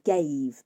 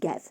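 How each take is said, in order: First: The vowel is long. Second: The vowel is short. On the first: "make long vowels into short ones" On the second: "make long vowels into short ones"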